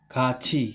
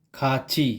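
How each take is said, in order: Both takes have the same delivery.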